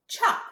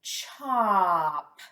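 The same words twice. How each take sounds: First: Said in the usual way. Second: Each sound drawn out, merging into chop; slow blend. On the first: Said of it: "What's this word?". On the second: Shown as a demonstration. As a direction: stretch the sounds slowly into one word. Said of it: "Blend that with me".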